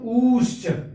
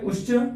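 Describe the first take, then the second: First: The vowel is held longest of all. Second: The vowel is held very briefly. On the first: This is the prolonged vowel. "उससे और थोड़ा सा समय लगाएंगे" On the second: This is the short vowel. "एक में कम काल लगता है"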